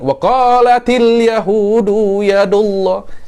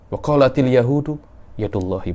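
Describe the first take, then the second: First: The phrase is said in a loud, strong voice. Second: The phrase is said in a soft, weak voice. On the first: It treats the improper claim carelessly. The speaker calls it wrong. "Jangan macam itu, tak pantas" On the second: It shows respect for an improper claim. The speaker calls it right. "kena suaranya kena lemah"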